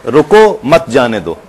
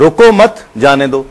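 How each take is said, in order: First: "रुको", then a break, then "मत जाने दो" together; slow command, cut after "रुको" so मत negates जाने; pause after रुको. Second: "रुको मत" together, a break, then "जाने दो"; slow command, join "मत" to रुको, then release with जाने दो; pause after मत. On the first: Host showing how delivery changes meaning, pause after "रुको". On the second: Host showing the reversed meaning, pause after "मत". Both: Shown as a demonstration. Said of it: "तो बिल्कुल ही बदल गया".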